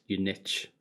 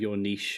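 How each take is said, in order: First: It is said with an American pronunciation. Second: It is said with a non-American pronunciation.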